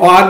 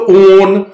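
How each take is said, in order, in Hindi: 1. स्वर एक खुली 'ऑ' ध्वनि है। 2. स्वर एक लंबी बंद 'ओ' ध्वनि है। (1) "वो ऑन है" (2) "आप ये मत बोलो ओन। ओन होता ही नहीं"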